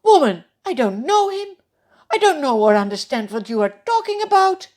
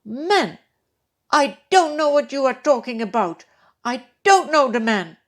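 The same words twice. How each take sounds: First: Loud, much higher, fast heated denial; denial with an oath. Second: Loud, higher angry oath; cursing denial. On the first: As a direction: swear it off in a hurry. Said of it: "this time even with an oath". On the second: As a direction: curse and deny with force. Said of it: "He begins to call down curses". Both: Acted.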